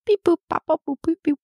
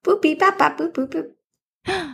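First: High beeping robot code. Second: High beeping robot reply. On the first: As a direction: beep it out like a little robot. Secret code in robot beeps. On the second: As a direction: beep back like a robot. Answering in robot beep code. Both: Pretend.

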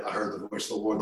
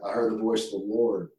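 First: Much softer, a team whispering back; imitating the team's hushed whisper; whispered echo. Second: Soft, grave line for the team to echo; hushed solemn recital. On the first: Football team echoes the coach's prayer, whispering. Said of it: "they whispered it". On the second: Retold or imitated. Coach leads the football team in a prayer, softly solemn. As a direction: say it quietly, like a prayer. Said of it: "acting and emotion".

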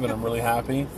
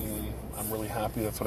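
First: Said in the usual way. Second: Words stretched by a yawn. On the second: Real, not acted. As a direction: talk through a tired yawn. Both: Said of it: "Sorry, I'm yawning".

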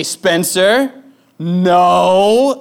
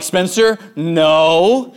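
First: Put-on louder, sharper warning to a toddler. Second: Put-on calm but firm warning to a toddler; a steady parental no, name then no. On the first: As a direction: snap the no like it's urgent. Dad stops toddler at socket. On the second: Dad stops toddler at drawers.

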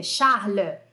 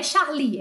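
First: "Charles" as "sharl-uh", mute E ending; correct French Charles. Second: "Charlie" ending in a clear "ee"; wrong Charlie. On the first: Teacher correcting the name for students, "Charles" ending in "uh". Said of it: "é Charles". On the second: Teacher showing what the name is not, "Charlie" ending in "ee". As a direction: say "Charlie" with stress on a final "lee". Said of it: "não é Charlie". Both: Shown as a demonstration.

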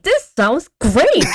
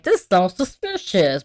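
First: High, drawn-out mock delight; gleeful Daphne. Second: Slow, mildly wary quote; suspicious Fred and Velma. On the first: Podcaster mocks Daphne thrilled by danger, gleeful. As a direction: gush slowly in a high voice. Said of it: "a whole ass Daphne, saying". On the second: Retold or imitated. Podcaster quotes Fred and Velma doubting, mildly suspicious. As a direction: draw it out with mild suspicion. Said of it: "Fred and Velma being like".

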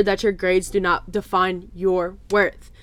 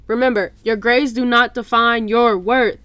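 First: Said in the usual way. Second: "not" stressed, louder reminder with "not" rising; "not" in "do not define your worth" pushed hard; emphatic reminder. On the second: Shown as a demonstration.

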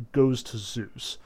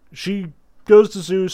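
First: Said in the usual way. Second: Goes punched high and loud; stress on goes. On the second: Shown as a demonstration. Lecturer stressing goes as Thetis heads to Zeus. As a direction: lean hard on goes, rising.

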